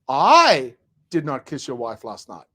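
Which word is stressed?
I. The stress falls on the word I.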